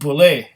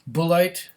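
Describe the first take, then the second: First: It sounds French, ending in an 'ay' sound. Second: It sounds Germanic, ending in an 'ite' sound. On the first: The speaker calls it wrong. "as if it was a French name" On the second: The speaker calls it right. "Bullite would be Dutch or German"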